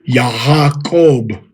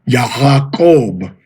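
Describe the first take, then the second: First: The middle consonant is an h sound. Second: The same.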